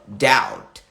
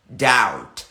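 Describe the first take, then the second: The two takes are said the same way.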